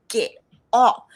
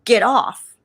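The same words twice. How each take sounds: First: Sharp, loud repeated order; commanding voice. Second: Sharp, loud order to get off the train; commanding voice. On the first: The voice repeating its order on the train, loud command. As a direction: say it again, firm and loud. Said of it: "I heard it again". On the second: Mystery voice ordering her off the train, loud command. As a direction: bark it out like a voice from nowhere. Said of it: "and I hear a voice". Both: Retold or imitated.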